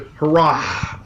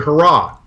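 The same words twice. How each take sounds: First: A breathy h is heard at the end. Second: No breathy h is heard at the end. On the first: The speaker calls it wrong. "you don't say hurrah" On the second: The speaker calls it right. "You don't hear it"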